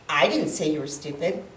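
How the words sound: The stress is on the word 'I'. Someone else said it. "if I put the emphasis in that on the first word I"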